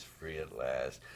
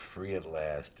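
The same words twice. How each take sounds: First: Soft slow echo. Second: Ironic quote. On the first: Retold or imitated. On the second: Shown as a demonstration.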